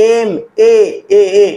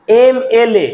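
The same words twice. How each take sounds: First: এমএএএ stretched very slowly on its "e" vowels; drawn-out vowel onset. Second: Said in the usual way. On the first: Shown as a demonstration. Teacher shows students the vowel sound in M, এমএএএ drawn out slowly. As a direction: draw out এমএএএ so the opening vowel rings clear. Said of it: "এম উচ্চারণ করতে গিয়ে প্রথমে vowel আসছে". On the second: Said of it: "সেটাকে উচ্চারণ করো".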